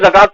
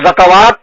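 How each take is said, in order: First: No 'wa' syllable is sounded in the middle. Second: A 'wa' syllable is sounded in the middle.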